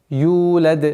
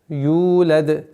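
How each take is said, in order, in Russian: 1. Долгий гласный длится два счёта. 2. Долгий гласный длится два счёта.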